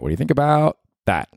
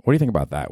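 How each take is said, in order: First: Higher, more eager repeat; excited. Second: Said in the usual way. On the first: Shown as a demonstration. Asking the audience about space chili peppers, higher and eager. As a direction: pitch it up with eager interest.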